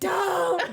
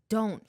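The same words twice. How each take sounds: First: It is said loudly, as a yell. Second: It is said at a quiet, normal level.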